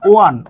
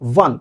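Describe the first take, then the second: First: The word begins with a plain o vowel. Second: The word begins with a w sound. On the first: The speaker calls it wrong. "বাংলায় আপনি যদি এটা বাংলা লেখেন এটা এই রকমের না" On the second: The speaker calls it right. "এটার উচ্চারণটা হলো ওয়ান"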